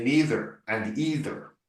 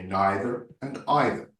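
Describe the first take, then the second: First: "neither and either" as NEE-ther and EE-ther; long ee in both "neither" and "either"; common pronunciation. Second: "neither and either" as NYE-ther and EYE-ther; educated British pronunciation. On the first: Coach showing how common people talk, "neither and either" with long ee. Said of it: "common people say neither and either". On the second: Coach citing educated British characters, "neither and either" with eye vowels. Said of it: "has a very good education". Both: Shown as a demonstration.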